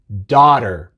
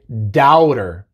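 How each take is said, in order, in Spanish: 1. La primera vocal es una sola a simple. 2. La primera vocal se desliza de a a o. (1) "simplemente es A. es daughter" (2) "no se pronuncia ao, No se dice daughter"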